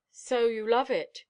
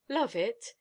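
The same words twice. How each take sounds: First: Delicious voice. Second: Croaked. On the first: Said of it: "he said in a delicious voice". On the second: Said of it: "she croaked". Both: A narrator's reading.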